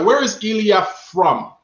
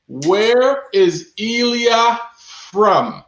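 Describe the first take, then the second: First: Said in the usual way. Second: Where is Ilya from, each word stretched slowly; slow, drawn-out question. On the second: Shown as a demonstration. Host re-asks the viewers slowly, stretching every word. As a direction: slowly repeat the question to the chat.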